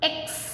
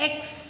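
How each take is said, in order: The two takes are said the same way.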